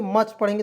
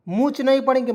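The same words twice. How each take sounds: First: मच said with a short a sound; correct reading. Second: मूछ said with a long oo, the wrong way; wrong reading. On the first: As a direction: read मच short, like much. (मच को छोटे अ के साथ सही पढ़ना) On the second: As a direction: read मूछ with long oo as a mistake. (मूछ को लंबे ऊ के साथ गलत पढ़ना) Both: Shown as a demonstration.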